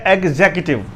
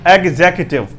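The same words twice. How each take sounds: The two takes are said the same way.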